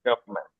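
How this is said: It is said with a British accent. "UK তে গভর্নমেন্টও বলা যায়"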